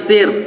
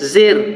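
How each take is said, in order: First: It begins with a z sound. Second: The same.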